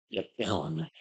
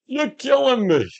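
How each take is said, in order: First: Much softer, understated take; subdued catchphrase. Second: High, drawn-out catchphrase cry; slow high-pitched hammed-up whine; mock exasperation. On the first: Acted. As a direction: drop it down quiet, under the voice. Same catchphrase dropped right down. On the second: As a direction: stretch it out way up high in mock agony. Playfully repeats a movie catchphrase.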